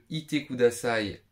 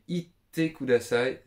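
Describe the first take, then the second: First: It is the plain form, heard as 'please stay'. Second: It is the altered form, heard as 'please leave'. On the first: The listener is asked to stay. "Le ite kudasai simple, c'est reste s'il te plaît" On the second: The listener is asked to leave. "c'est pars s'il te plaît"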